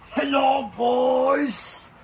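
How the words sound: It is said in a Cookie Monster-like voice.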